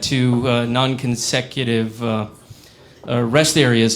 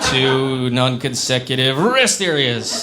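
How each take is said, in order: First: It is said slowly with hesitations. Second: It is said quickly without hesitations.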